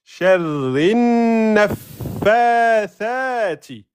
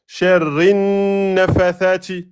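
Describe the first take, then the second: First: "nafathati" chanted very slowly, higher, with a long doubled f; correct shadda and prolongation. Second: "nafathati" with the shadda on the fa dropped; wrong nafathati. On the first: Teacher modelling the rule for students, "nafathati" chanted with everything held. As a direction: hold the n of "Sharrin", the f and each long a of "nafathati". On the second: Teacher showing students what not to say, "nafathati" without doubled f. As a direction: hold the n of "sharrin", then a light single f in "nafathati". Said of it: "Donc ne dites pas". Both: Shown as a demonstration.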